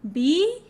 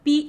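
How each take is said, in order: First: The syllable rises in pitch in a second tone. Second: The syllable is said without a marked tone.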